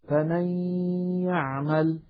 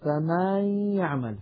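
First: The vowel after the m is short. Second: The vowel after the m is stretched out.

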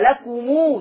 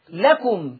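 First: The word ends with a long drawn-out u. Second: The word ends on a short closed m.

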